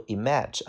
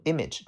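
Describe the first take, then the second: First: "image" mispronounced with stress on second syllable; wrong stress on image. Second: "image" stressed on first syllable, IM-ij; front stress on image. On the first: Teacher warning students how not to read it, "image" stressed on second syllable. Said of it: "注意这个单词的发音不读image". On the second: Teacher showing students the correct reading, "image" stressed on first syllable. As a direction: hit the start of "image", light unstressed ending. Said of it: "重音在前面". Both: Shown as a demonstration.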